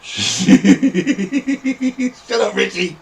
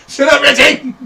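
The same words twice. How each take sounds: First: Higher-pitched scolding yell. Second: Very high, loud screech; angry shout. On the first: Telling Richie to shut up, scolding. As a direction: tell him off through the laughs. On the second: Yelling at Richie to shut up, furious shout. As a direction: blow up and shriek it at him. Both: Pretend.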